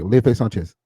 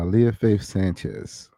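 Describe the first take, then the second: First: The name is said very quickly. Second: The name is said slowly and clearly.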